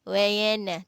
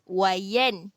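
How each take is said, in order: First: The n is followed by an added vowel. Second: The n ends cleanly with no vowel. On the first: The speaker calls it wrong. "Kita tak boleh wayana. Wayana, tak boleh, salah" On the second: The speaker calls it right. "Jelas, wayan"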